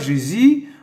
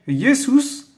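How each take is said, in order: First: The name is pronounced the Creole way. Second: The name is pronounced the Greek way. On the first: "En créole" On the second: "en grec"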